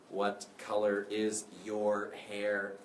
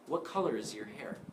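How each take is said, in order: First: The word 'your' is full and strong. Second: The word 'your' is weak and reduced. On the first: The speaker calls it wrong. "I'm not saying, ... I sound like a robot" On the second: The speaker calls it right. "You want to reduce this word"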